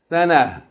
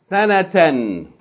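First: The word ends with a soft h sound. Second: The word ends with a full tan sound. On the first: The reader stops on this word. "If you stop on it, just pronounce it as ha" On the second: The reading continues on without stopping. "read it first in continual mode"

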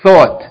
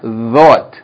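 First: The first sound is a voiceless th. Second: The first sound is a voiced th. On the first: The speaker calls it right. "You have to say thought" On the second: The speaker calls it wrong. "not thought"

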